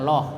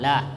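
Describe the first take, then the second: First: The L is heavy, with a darker o vowel. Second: The L is light, with a clear a vowel. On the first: The speaker calls it wrong. "Kalau loh itu tebal" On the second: The speaker calls it right. "maka lamnya itu tipis"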